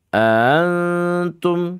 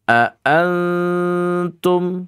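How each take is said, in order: First: The opening glottal stop is softened and weak. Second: The opening glottal stop is strong and separated. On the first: The speaker calls it wrong. "ini namanya ya dibaca dengan keadaan tashil ya, nggak boleh seperti itu" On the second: The speaker calls it right. "benar-benar kuat dan terpisah"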